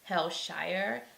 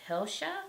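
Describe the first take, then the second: First: It is pronounced the way it is spelled. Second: It is pronounced the local Jamaican way. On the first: This is how the written name suggests saying it. "it looks like you would say Hillshire" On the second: This is how locals say the name. "is how they say it in Jamaica"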